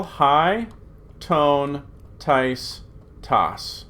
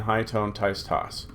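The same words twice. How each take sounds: First: Word by word. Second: Memorized recitation. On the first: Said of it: "this is how you say". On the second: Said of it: "Just need to memorize that". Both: Shown as a demonstration.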